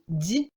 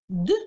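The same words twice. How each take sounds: First: The consonant is soft, palatalized. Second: The consonant is hard, not palatalized.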